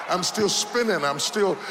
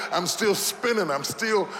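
Both takes have the same delivery.

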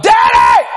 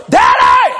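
First: Very high, loud cry for daddy; hollering. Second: Deep, loud laughing holler for daddy. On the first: Teen hollers to his dad across the road, loud. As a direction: holler it as loud as you can. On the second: Teen hollers to dad again, low laughing bellow. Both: Retold or imitated. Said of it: "Hollering that loud".

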